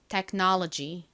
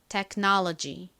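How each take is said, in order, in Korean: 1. 미국 영어 소리로 발음됩니다. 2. 미국 영어 소리로 발음됩니다.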